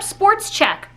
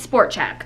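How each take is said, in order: First: The first word ends with an s sound. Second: The first word ends without an s sound. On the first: The speaker calls it wrong. "people are like, let's hit up Sports Check" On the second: The speaker calls it right. "You mean Sport Check. There's no S there"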